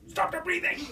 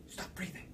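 First: Much higher, squeezed voice; strained hushed order. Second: Very soft whisper; hushed order. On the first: Hunter insists to his partner mid-stalk, high strained voice. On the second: Hunter orders his partner to be silent, whispering. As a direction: whisper a command to keep still. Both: Retold or imitated.

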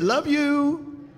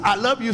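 First: "you" lifted high and drawn out; imitated sweet way. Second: Said in the usual way. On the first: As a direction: imitate her sweet "Love you", stretching a raised "you". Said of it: "She just said". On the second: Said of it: "She wouldn't say".

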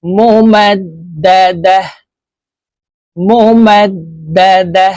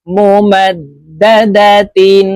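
First: "মোমাদ দা দা" chanted, last "দা" stopped on h; pausal h ending. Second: "মোমাদ দা দা তিন" chanted, closing on a held "tin"; continuous-reading ending. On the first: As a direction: end "মোমাদ দা দা" with "dah" in place of tin. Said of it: "হার উচ্চারণ করব এবং হাকে সাকিন করে". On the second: Teacher models the full word, "মোমাদ দা দা তিন" ending in tin. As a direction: keep the t and n at the end of "মোমাদ দা দা তিন". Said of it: "গুলতা ওয়াকফের ক্ষেত্রে হার উচ্চারণ করব". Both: Shown as a demonstration.

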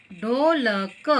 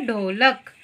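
First: ढोलक drawn out as ढो, ल, क; ढो... ल... क, spaced out for learners; syllable by syllable. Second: Said in the usual way. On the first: Shown as a demonstration. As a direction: sound out ढोलक one syllable at a time. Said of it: "देखिए कैसे जोड़ते हैं". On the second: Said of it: "ये क्या है?".

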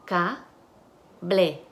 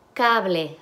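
First: "Ca, ble" as two syllables with a clear gap. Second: Said in the usual way. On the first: Shown as a demonstration. Teacher segments the word for students, syllable by syllable. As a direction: break "Ca, ble" apart at the syllable. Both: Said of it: "Y las sílabas".

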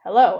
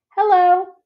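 First: Said in the usual way. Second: Put-on high, louder little girl hello; a tiny elephant calf piping up; small child's voice. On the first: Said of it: "I say". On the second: A narrator's reading. Ruby greets Ivan in a high little voice. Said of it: "says a small, clear voice".

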